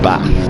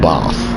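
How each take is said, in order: First: Bath is said with a short, flat northern vowel. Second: Bath is said with a long southern 'ar' vowel. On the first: The speaker calls it right. "I say it like a northerner because I don't put an R in Bath" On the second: The speaker calls it wrong. "not bath"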